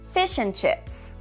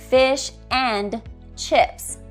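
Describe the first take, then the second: First: The word 'and' is reduced to a weak schwa. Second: The word 'and' is said in full, stressed. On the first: The speaker calls it right. "you would change it to" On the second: The speaker calls it wrong. "you wouldn't say"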